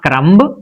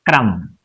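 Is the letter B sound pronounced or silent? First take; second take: pronounced; silent. First: The B sound is pronounced after the M. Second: The B sound is silent after the M. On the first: The speaker calls it wrong. "B is silent after M. So it is not crumb" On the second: The speaker calls it right. "but it is crumb"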